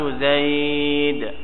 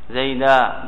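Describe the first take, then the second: First: The word ends on a bare final consonant. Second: The word ends with a long 'a' vowel. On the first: This is the pausal form of one tribe's dialect. "رأيت زيد هكذا ربيعة" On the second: This is the common Arabic pausal form. "زيدا بالألف"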